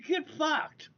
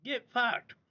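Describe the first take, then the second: First: Higher scornful get fucked; scornful dismissal; dismissive. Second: Higher scornful repeat; scornful dismissal; dismissive. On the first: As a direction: spit it out dismissively. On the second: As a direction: toss it off again. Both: Real, not acted.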